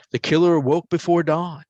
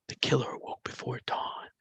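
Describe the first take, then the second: First: Said in the usual way. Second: Soft unvoiced whisper. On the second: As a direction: breathe it out like a ghostly voice on the CD. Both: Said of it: "There's a whisper and then Jim".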